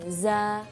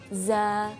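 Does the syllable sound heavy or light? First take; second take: light; light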